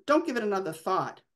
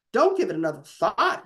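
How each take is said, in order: First: Easy, unbothered brush-off of "Don't give it another thought"; calm. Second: A mild mock roar throwing back "Don't give it another thought". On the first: Sal calmly waving off his father's worry about the police. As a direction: shrug it off, perfectly calm. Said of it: "asked Sal, perfectly calm". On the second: Father mockingly repeating his son's words in a mild roar. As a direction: hurl the son's words back in a lightly voiced rage. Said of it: "his father roared". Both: A narrator's reading.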